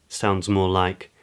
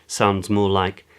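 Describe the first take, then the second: The two takes are said the same way.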